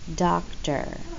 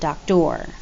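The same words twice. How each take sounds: First: The last syllable has a weak, reduced er sound. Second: The last syllable has a full, strong or sound. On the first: The speaker calls it right. "with that weaker E R sound. We say doctor" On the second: The speaker calls it wrong. "not doctor"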